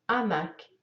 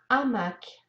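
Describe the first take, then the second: The two takes are said the same way.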